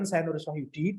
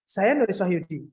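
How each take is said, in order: First: It is read flat and relaxed, without a smile. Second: It is read with a slight smile in the voice. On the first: "dibaca nyantai, uh, flat" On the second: "dibaca ada senyumnya dikit"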